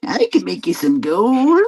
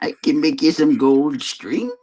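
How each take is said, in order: First: High, strange imp voice; fairy tale imp voice. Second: Sly little goblin, toned down; fairy tale imp voice. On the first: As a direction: coax like a sly little goblin. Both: Pretend. Fairy-tale imp offering gold.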